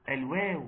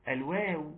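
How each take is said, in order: Both takes have the same delivery.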